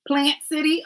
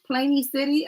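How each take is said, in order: First: "Plant City" with a clear "plant", checking it; corrected town name. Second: "Planey City" read as PLAY-nee, a wrong first guess; misread town name. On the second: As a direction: say "Planey City" with a long "ay", unsure. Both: Shown as a demonstration. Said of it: "me J say Plant City".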